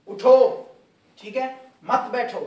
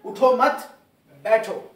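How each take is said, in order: First: उठो alone, stop, then मत बैठो in one go; pause after उठो. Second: उठो मत loud and joined, break, loud बैठो; pause after मत. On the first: Teacher explains the translation, stopping after उठो. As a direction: break firmly after उठो, join मत to बैठो. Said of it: "अगर मैं यहाँ पे वक्फ करता हूँ". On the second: Teacher shows students the opposite meaning, pausing after मत. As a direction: hit उठो मत, stop, then बैठो separately. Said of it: "अगर मैं यहाँ पर वक्फ करता हूँ". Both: Shown as a demonstration.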